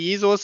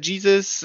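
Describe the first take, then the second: First: The name is said with German pronunciation. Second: The name is said with English pronunciation. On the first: "bei uns heißt der Jesus" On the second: "in England heißt er Jesus"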